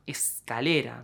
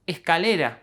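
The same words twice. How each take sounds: First: The S is pronounced clearly and fully as s. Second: The S is softened into a breathy h-like sound. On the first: This is a careful form never used in real life. "they would probably overpronounce them" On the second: This is how it is said in everyday speech. "It is called S aspirada"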